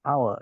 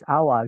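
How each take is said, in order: First: It is said in an American accent. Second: It is said in a British accent. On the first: "kalau American eh, hour gitu" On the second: "kalau Inggris hour gitu ya"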